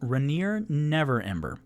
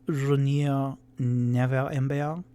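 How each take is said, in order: First: The name is said without a French accent. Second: The name is said with a French accent.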